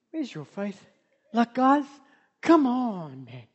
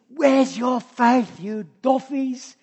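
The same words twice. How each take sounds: First: Gentle. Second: Slow, drawn-out mocking scold. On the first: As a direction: ask it tenderly, almost under the breath. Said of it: "It's like". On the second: Jesus chiding his disciples, wrong take, slow mocking scold. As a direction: rub it in slowly, chiding them. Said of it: "I don't think he said". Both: Shown as a demonstration.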